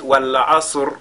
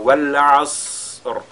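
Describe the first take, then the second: First: The s sound ends with a short bounce. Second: The s sound is drawn out with airflow. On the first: The speaker calls it wrong. "comme si elle était une lettre de Al-Qalqala" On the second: The speaker calls it right. "De cette façon-là"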